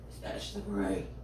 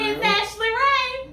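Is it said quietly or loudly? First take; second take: quietly; loudly. First: It is said quietly. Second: It is said loudly.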